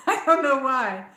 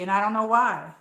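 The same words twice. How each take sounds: First: Laughing through a puzzled repeat. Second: Said in the usual way. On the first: Real, not acted. To her viewers, about being called New Jersey, laughing. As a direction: chuckle it out, amused and baffled.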